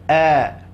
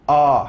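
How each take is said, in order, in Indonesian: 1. Bunyinya tipis, diucapkan sambil tersenyum. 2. Bunyinya tebal, diucapkan dengan mulut terbuka lebar. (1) "Huruf tipis cara membacanya cukup dengan bagaimana melihat orang senyum" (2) "tak perlu a. Ha, nanti dia akan akan menjadi huruf tebal"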